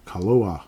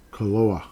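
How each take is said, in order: Both takes have the same delivery.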